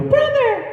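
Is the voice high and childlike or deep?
high. It is said in a high, childlike voice. This is the character as first voiced in youth. "the original Alphonse"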